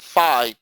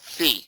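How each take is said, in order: First: The word rhymes with 'pie'. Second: The word rhymes with 'see'. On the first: This is the common everyday pronunciation. "a lot of people call it phi because that's how it is" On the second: This is the true pronunciation. "But it's really called phi. Um, that's the correct pronunciation"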